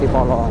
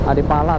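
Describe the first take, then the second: First: The last vowels are pronounced as 'o'. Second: The last vowels are pronounced as 'a'. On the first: This is how Javanese speakers read it. "kalau orang Jawa A itu dibaca O ya" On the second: This follows the written spelling. "tulisannya sih Adipala"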